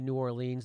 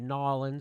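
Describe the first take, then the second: First: The name is said in full, non-local form. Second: The name is clipped the local New Orleans way.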